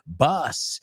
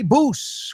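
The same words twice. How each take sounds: First: The vowel sounds like a short 'uh'. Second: The vowel sounds like a long 'oo'. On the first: The speaker calls it right. "we say bus" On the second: The speaker calls it wrong. "we don't say bus"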